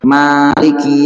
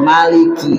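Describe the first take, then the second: First: The first vowel is held long. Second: The first vowel is kept short. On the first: God rules through action over what He owns. "bil alif maddan, ada alif yang memanjangkan" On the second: God rules through command and prohibition. "tanpa ada alif yang memanjangkan tapi dibaca pendek"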